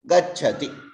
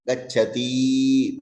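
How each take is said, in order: First: The final vowel is short. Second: The final vowel is drawn out long. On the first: "Hrasva is just an Ikara there" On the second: "If it were to be Dirgha, it will be Ti"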